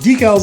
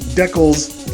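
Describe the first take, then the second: First: It is pronounced the usual American and British way. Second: It is pronounced the typical Canadian way. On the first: "decals is how it's pronounced both in the U S and the U K" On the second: "Decals is typically a Canadian pronunciation"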